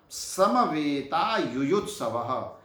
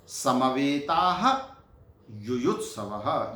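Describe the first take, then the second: First: "समवेता" said slowly with no final h; slow joined form. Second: Slow recitation. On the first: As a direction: drop the visarga from "समवेता", slowly. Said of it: "उन विसर्गों का लोप हो जाता है". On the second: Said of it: "teacher recites separate words". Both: Shown as a demonstration.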